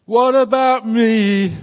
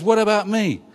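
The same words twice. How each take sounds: First: Slow, sung high and a bit louder; crooning it slowly like the pop song. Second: Put-on peeved older son. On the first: Pretend. Pastor quoting a pop song to his congregation, crooned slowly. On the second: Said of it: "peeved about that and says".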